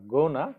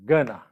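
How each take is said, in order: First: "gonna" as GOH-na, tune rising; wrong pronunciation. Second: "gonna" as GUH-na, loud and falling; correct pronunciation. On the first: Teacher shows learners how not to say it, wrong "gonna" with a long O. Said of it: "you see the pronunciation, it's not". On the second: Teacher corrects the pronunciation for learners, firm short-vowelled "gonna". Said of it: "it's, uh, gonna". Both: Shown as a demonstration.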